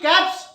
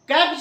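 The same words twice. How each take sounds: First: The word ends with an s sound. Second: The word ends with a z sound. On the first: The speaker calls it right. "स" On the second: The speaker calls it wrong. "कैप्स नहीं, ज नहीं"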